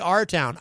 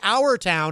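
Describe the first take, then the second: First: The word 'our' sounds like 'are'. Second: The word 'our' sounds like 'hour'. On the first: "It sounds more natural to say Our Town" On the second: "it sounds awkward to me coming out of my mouth"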